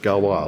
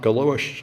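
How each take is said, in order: First: The name is pronounced the French way. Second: The name is pronounced the English way. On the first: The speaker calls it right. "It's French, ... Apparently it's Galois" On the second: The speaker calls it wrong. "it's not Galois"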